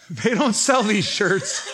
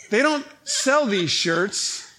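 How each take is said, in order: First: Laughing through the line, slowed; laughing repeat. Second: Slow, with the word sell leaned on; slow stress on sell. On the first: Repeating the punchline to the church, laughing. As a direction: let the laugh break into it. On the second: Telling the church about the shirts, stressing sell. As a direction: land on sell, drawn out. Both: Real, not acted.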